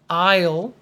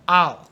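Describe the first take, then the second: First: The word is said slowly with a full vowel. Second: The word is said fast with a reduced vowel. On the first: "so this could be I'll" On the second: "if you say it fast, it sounds like almost like A H L"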